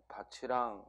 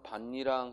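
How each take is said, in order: First: The final consonant links over as a ch sound. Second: The final consonant is cut to a plain stop. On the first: The ending is a particle meaning 'and'. "이 조사가 왔기 때문에 밭이랑 하고 발음을 하는 것이고" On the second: The ending is a noun meaning 'furrow'. "그때는 대표음이 나야 돼요"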